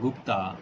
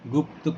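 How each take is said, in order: First: The word ends with a long 'aa' vowel. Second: The word ends on a consonant. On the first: The speaker calls it wrong. "गलत उच्चारण" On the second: The speaker calls it right. "शुद्ध उच्चारण"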